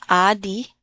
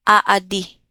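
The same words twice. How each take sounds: First: "adi" said with a short clipped first a; "adi" with a short a as the mistake; short vowel, wrong take. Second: "aadi" said with a long drawn-out first a; "aadi" with a held long a, not "adi"; long first vowel. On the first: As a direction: say "adi" quickly as the wrong version. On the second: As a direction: stretch the opening a of "aadi". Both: Shown as a demonstration. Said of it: "Not adi".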